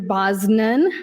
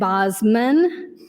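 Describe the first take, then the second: First: An n sound follows the s sound. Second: An m sound follows the s sound. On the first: "I've heard Senator Bosnan" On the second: "and Bosman"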